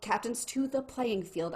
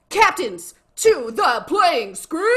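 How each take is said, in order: First: It is said quietly, without much energy. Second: It is said loudly, with great enthusiasm. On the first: It is not yet the real announcement. "I didn't want to say it too loud" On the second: It is the real announcement, time to cheer. "when I say that with enthusiasm"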